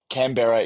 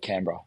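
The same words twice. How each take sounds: First: The vowels are pronounced full and clear. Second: The vowels are shortened and cut down. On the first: It is the literal, spelled-out pronunciation. "Canberra is right" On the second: It is how locals say it. "but we say Canberra"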